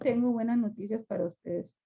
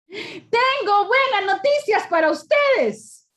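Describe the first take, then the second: First: It is said in a sad tone. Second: It is said in a happy tone.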